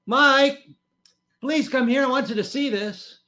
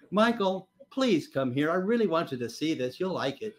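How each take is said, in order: First: High, loud sing-out up the stairs; wife's sweet voice. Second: Mild imitation of a coaxing wife; wife's coaxing. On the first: Retold or imitated. Wife calling husband downstairs to see the news, sweetly. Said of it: "her sweet little voice came wafting". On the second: Wife coaxing her reluctant husband downstairs, gently persuasive. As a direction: coax gently, without calling out. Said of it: "The next phrase always kills me".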